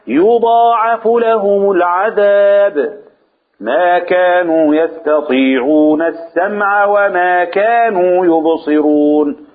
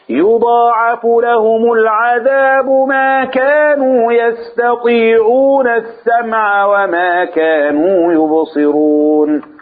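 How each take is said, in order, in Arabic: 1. هناك وقفة بعد 'al-adhab'. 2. يستمر الكلام بعد 'al-adhab' دون وقفة. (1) "قرأناها بمرتين او بطريقتين" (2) "من هذا الوصل"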